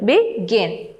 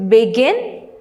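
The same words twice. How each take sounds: First: "begin" split in two, GIN stressed; stress on second syllable. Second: Said in the usual way. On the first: Shown as a demonstration. Teacher demonstrating syllable stress, "begin" split with GIN stressed. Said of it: "The stress is on the second syllable". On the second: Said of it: "the next word is begin".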